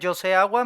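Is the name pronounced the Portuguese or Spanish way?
Portuguese. The name is said with Portuguese pronunciation.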